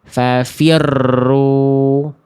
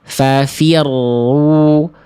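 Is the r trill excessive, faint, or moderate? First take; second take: excessive; moderate. First: The doubled r is trilled far too much. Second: The doubled r has a moderate trill. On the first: The speaker calls it wrong. "getaran rohnya terlalu berlebihan" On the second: The speaker calls it right. "Yang tepat adalah yang C"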